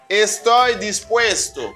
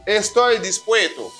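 First: The s sounds are fully pronounced. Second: The s sounds are dropped or swallowed. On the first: "Es la pronunciación correcta" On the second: "Es así que hablan los nativos. Sobre todo los dominicanos"

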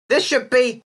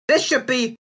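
Both takes have the same delivery.

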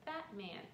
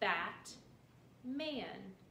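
First: The syllables are said together, without a pause. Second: The syllables are said apart, with a pause.

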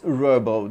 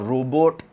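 First: The final T sound is silent. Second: The final T sound is clearly pronounced. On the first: The speaker calls it right. "T is kind of silent" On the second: The speaker calls it wrong. "students here say it's a robot or robot. It's not like that"

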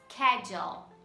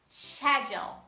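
First: It begins with a 'sk' sound. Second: It begins with a 'sh' sound. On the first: "Pronunciamos no inglês americano como schedule" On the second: "Já no britânico"

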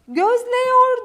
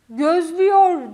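First: The vowel before -yor is a wide E. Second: The vowel before -yor is a narrow Ü. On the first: The speaker calls it wrong. "değil" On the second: The speaker calls it right.

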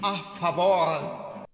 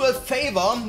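First: It is pronounced with Spanish sounds. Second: It is pronounced with English sounds.

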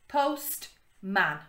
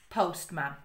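First: The word breaks into two separate syllables. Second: The word flows as one unbroken unit. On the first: "read the first syllable, then the second syllable" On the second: "then the whole word to get the whole word together"

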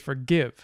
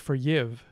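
First: The g is a hard g sound. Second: The g is softened into a y-like sound. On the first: This is the form modern English uses. "We say forgive" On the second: This is a form modern English does not use. "we didn't inherit a palatalized form of that. We don't say forgive in modern English"

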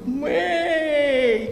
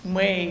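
First: The word is said with extreme delight. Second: The word is said with contempt. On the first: The speaker is thrilled. "крайняя степень восторга" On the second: The speaker looks down on something. "это просто презрение"

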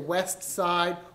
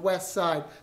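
First: The t at the end of west is pronounced. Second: The t at the end of west is dropped.

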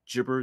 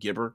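First: The word starts with a soft J-like G. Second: The word starts with a hard G sound. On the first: "I do the soft G gibber" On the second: "instead of gibber"

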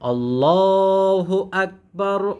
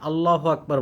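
First: The vowel in Allah is long and heavy. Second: The vowel in Allah is short and light. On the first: The speaker calls it right. "আল্লাহ পাতলা হবে না, মোটা হবে" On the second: The speaker calls it wrong. "আল্লাহ টান দিই না, আল্লাহু আকবার বলি"

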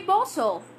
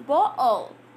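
First: The middle T is clearly pronounced. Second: The middle T is replaced by a glottal stop. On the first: "You say bottle" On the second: "it becomes a bottle"

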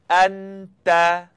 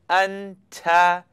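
First: The middle consonant is made cleanly without ticking. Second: The middle consonant has a ticking sound. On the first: The speaker calls it right. "Now let's try one together" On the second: The speaker calls it wrong. "if you were saying it wrong, you'd hear something like anta"

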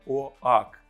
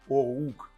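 First: The vowel is 'oh' followed by 'ah'. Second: The vowel is a single 'oh' glide. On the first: The speaker calls it wrong. "а не «оак»" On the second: The speaker calls it right. "ми його вимовляємо «оук»"

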